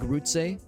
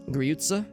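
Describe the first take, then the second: First: The first vowel is a plain back 'u'. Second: The first vowel is fronted, like German 'ü'. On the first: "I'm assuming it's rot, uh, rotte grutze" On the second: "Oh, there's an umlaut"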